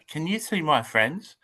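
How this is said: It is said in a little child's voice.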